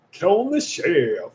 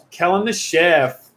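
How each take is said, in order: First: Slow, drawn-out put-on voice; slow mock title announcement. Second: Said in the usual way. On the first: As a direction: stretch the name out playfully. Repeats name in put-on voice.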